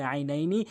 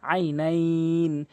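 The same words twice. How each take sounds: First: Said in the usual way. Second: Slow, level recitation holding the end of "আইনাইন"; drawn-out pausal ending. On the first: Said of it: "বানান করলে হয়". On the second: Shown as a demonstration. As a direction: stretch the last "ই" of "আইনাইন" before closing on n. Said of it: "এক লিফ টেনে পড়তে হবে।". ("আইনাইন"-এর শেষে টেনে থামা)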